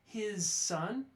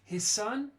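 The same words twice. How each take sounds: First: His ends with a clear voiced z sound. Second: His ends with a voiceless s sound. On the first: The speaker calls it wrong. "I was articulating too strongly" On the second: The speaker calls it right. "you notice the z goes away"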